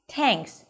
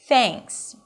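First: The first sound is hard, with a tense tongue. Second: The first sound is soft and airy, tongue out. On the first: The speaker calls it wrong. "if it's too tight against the teeth, it's going to sound like thanks" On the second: The speaker calls it right. "You want to stick the tongue out and release air"

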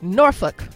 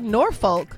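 First: It is pronounced the way locals say it. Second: It is pronounced the way it is spelled. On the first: The speaker is an insider to the area. The speaker calls it right. "It's actually Norfolk" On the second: The speaker is an outsider to the area. The speaker calls it wrong. "the people who live there will laugh at you because that is not how you pronounce"

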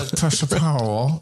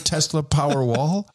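First: It is spoken with the teeth held together. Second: It is spoken in a normal, open-mouthed voice.

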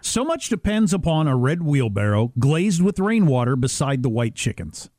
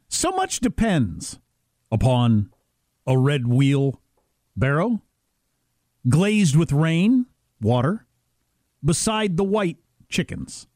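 First: It is read more quickly with fewer pauses. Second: It is read slowly with pauses at line breaks. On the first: "I'll read it again a little faster" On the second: "I'll pause at the breaks"

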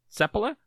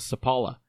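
First: The stress is on the first syllable. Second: The stress is not on the first syllable. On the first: This is how the player says his own name. The speaker calls it right. "the accent with Finnish names is almost always on the first syllable" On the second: This is how North Americans say it. The speaker calls it wrong. "the North American pronunciation was Sepala"

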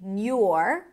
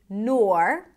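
First: The syllable is said with a 'y' glide. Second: The syllable is said with an 'or' vowel. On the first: "nur with a y sound" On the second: "You can either say nor"

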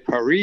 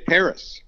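First: The city name is said the French way. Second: The city name is said the American way. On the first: "in America, you don't say Paris" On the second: "you say Paris"

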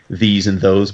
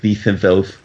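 First: The s sounds are said clearly, without a lisp. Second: The s sounds are said with a heavy lisp. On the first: "he speaks like he did in Prince Valiant" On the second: "but it's all lispy"

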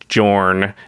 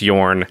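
First: The name begins with a J sound. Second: The name begins with a Y sound. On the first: The speaker calls it wrong. "everyone was mispronouncing the name of Jorn" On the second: The speaker calls it right. "it's Yorn"

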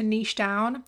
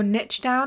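First: Niche is said in a non-American pronunciation. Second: Niche is said in an American pronunciation.

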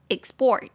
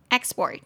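First: The stress is on the second syllable. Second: The stress is on the first syllable. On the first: It is a verb meaning to export. "动词export" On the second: It is a noun meaning exports. "名词export"

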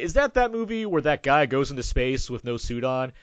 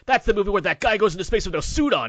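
First: It is said in a condescending tone. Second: It is said in an enthusiastic, admiring tone.

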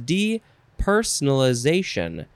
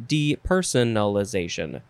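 First: One syllable in the middle is dropped. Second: Every syllable of the word is pronounced. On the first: "We lost a syllable" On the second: "or you can say depersonalization"

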